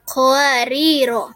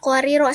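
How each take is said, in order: First: The final vowel is held long, two beats. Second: The final vowel is short, not lengthened. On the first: The reciter stops after this word. "dibaca dengan dua harokat" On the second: The word is joined to the next verse. "ro pertama tidak dibaca panjang"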